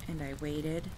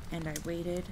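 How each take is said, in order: Both takes have the same delivery.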